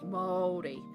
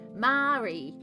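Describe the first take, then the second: First: The word is said like 'Maori'. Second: The word is said like 'Mari'. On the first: The speaker calls it right. "it's Māori" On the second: The speaker calls it wrong. "I used to say Mari, and that's not"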